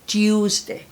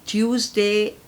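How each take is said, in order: The two takes are said the same way.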